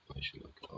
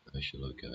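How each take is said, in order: First: Whispered repeat to himself, much softer. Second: Said in the usual way. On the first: Real, not acted. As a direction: breathe it out under your breath.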